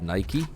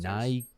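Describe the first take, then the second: First: The brand name is said a non-British way. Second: The brand name is said the British way. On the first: The speaker calls it right. "instead of" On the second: The speaker calls it wrong. "when Brits say Nike, like"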